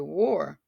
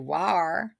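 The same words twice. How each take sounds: First: The vowel sounds like the or in for. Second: The vowel sounds like the ar in car. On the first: The speaker calls it right. "But it says or. We say war" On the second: The speaker calls it wrong. "It actually does not say R. We don't say war"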